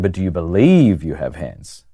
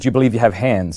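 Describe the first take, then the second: First: It is asked with heavy emphasis on one word. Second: It is asked plainly, without special emphasis.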